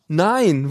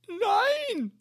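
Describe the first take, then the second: First: Said in the usual way. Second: Much higher, cried out despairing Nein; crying no. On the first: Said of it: "admin answers plainly". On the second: A narrator's reading. Caller wailing at the admin over lost warranty, crying.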